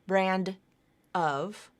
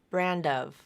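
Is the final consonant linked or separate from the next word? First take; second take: separate; linked. First: The final D stays separate from the next word. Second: The final D links onto the next word. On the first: The speaker calls it wrong. "not brand of" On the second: The speaker calls it right. "the D moves over to the beginning of the next word"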